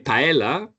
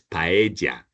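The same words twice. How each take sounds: First: The double L sounds like an L. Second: The double L sounds like a J. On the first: The speaker calls it wrong. "they're going to charge you twenty percent more" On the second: The speaker calls it right. "The double L in Spanish is like a J"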